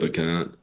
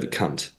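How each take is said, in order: First: The final T is soft and barely pronounced. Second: The final T is hard and clearly pronounced. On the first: The speaker calls it wrong. "Americans, you say it wrong. You don't enunciate the T properly" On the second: The speaker calls it right. "like a proper hard T at the end"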